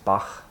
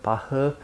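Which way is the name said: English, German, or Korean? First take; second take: German; Korean. First: The name is said the German way. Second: The name is said the Korean way. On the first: "But the correct German is Bach. There's a h" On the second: "In Korean say Bach"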